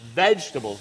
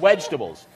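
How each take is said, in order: First: The word begins with a V sound. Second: The word begins with a W sound. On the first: The speaker calls it right. "You're actually having vegetables" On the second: The speaker calls it wrong.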